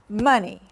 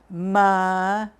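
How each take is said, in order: First: The word is said fast. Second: The word is said slowly.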